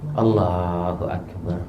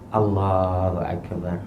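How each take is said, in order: Both takes have the same delivery.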